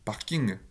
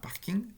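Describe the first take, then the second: First: The word ends with an added schwa vowel. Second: The word ends without any schwa vowel. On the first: "Si je mets un cheval à la fin" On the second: "un mot qui n'est pas censé avoir de cheval à la fin"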